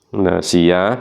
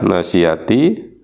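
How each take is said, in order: First: The word ends in a soft h sound. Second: The word ends with a t and vowel. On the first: The reader stops at this word. "apabila diwakafkan tak marbutohnya itu dibaca ha atau ha mati" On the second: The reading continues without a stop. "tak marbutoh, ya, bertanda kasroh"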